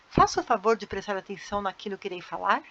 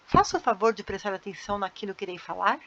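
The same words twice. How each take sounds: First: It sounds surprised and doubtful, like an exclamation. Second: It sounds surprised and doubtful, like an exclamation.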